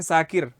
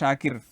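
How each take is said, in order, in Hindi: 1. नाम 's' ध्वनि से शुरू होता है। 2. नाम 'sh' ध्वनि से शुरू होता है। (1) "बहुत सारी मर्तबा हम बोलते हैं साकिर" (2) "किसी तालिब इल्म का नाम है आप में से शाकिर, हमने ये लिखा"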